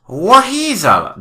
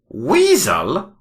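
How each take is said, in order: First: The name is said with a middle 'h' sound. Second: The name is said with no middle 'h' sound. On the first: The speaker calls it right. "It's pronounced Waheasel" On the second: The speaker calls it wrong. "Doctor Weasel?"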